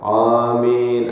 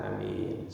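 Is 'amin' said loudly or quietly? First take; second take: loudly; quietly. First: The word is said loudly and clearly. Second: The word is said softly and quietly. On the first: This is how the prayer is done back home. "nyaring amin seperti di tempat kita" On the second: This follows the Hanafi school's practice. "lirih saja, amin, seperti itu"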